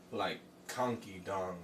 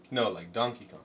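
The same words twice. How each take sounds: First: Spoonerised "Conky Dong" said quietly; garbled name. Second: Said in the usual way. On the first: Shown as a demonstration. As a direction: say "Conky Dong" with the sounds swapped.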